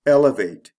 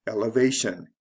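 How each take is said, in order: First: "Elevate" stressed EL-e-vate, first syllable loud. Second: "elevation" stressed ele-VA-tion; stress before the ending. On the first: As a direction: punch EL in "Elevate". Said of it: "is actually the first syllable of these words". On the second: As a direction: land on VA in "elevation". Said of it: "the stress comes right before the ending". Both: Shown as a demonstration.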